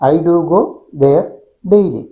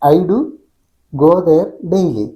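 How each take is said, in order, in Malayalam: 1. ആദ്യത്തെ ഇടവേള "go"-യ്ക്ക് ശേഷമാണ്. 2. ആദ്യത്തെ ഇടവേള "do"-യ്ക്ക് ശേഷമാണ്. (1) "ഐ ഡു ഗോ എന്ന് ഒരുമിച്ച് പറഞ്ഞതിന് ശേഷം ഗ്യാപ്പ്, പിന്നെ ദെയർ" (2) "ഐ ഡു ഒരുമിച്ച് പറഞ്ഞതിന് ശേഷം ഗോ ദെയർ ഒരുമിച്ച് പറഞ്ഞതിന് ശേഷം പിന്നെ ഡെയിലി"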